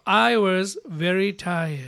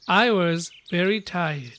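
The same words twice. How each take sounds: First: "I was very tired" drawn out slowly; slow model reading. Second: "I was very tired" repeated slowly; slow model reading. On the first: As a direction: read slowly so they can follow. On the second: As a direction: say it slowly once more for the class. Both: Shown as a demonstration. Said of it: "読んでみましょう".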